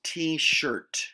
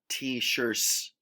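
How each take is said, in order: First: The final T sound is clearly pronounced. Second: The final T sound is not clearly pronounced. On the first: The speaker calls it right. "enunciate the T sound at the end" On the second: The speaker calls it wrong. "not t-shirts"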